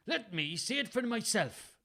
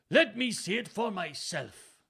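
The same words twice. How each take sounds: First: High-pitched Welsh that misses; botched Welsh accent. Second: High, loud, slow Welsh insistence; careful Welsh accent. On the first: Father demands the letter from his son, botched Welsh accent. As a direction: try a stage Welsh and get it slightly off. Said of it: "What, what was that?". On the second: Father insists on seeing letter on second try, careful Welsh accent. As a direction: insist in deliberate stage Welsh. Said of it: "insisted in a perfect accent". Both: A narrator's reading.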